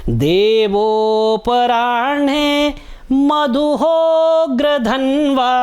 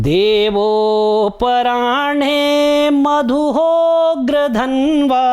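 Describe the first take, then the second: The two takes are said the same way.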